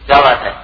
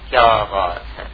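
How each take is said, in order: First: It is said in a hostile, confrontational tone. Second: It is said with an amazed, admiring tone. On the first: The speaker is picking a fight. "اب یہ پوچھنا نہیں ہے، اب لڑائی ہو رہی" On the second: The speaker is expressing wonder, not asking. "اب کوئی حیرت کا اظہار ہو رہا ہے"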